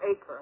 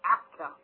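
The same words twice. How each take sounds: First: The name is said in the English way. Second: The name is said in a non-English way.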